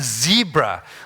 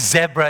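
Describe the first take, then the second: First: It is said with an American accent. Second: It is said with a South African accent. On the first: The speaker calls it right. "it's a zebra" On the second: The speaker calls it wrong. "you don't say zebra"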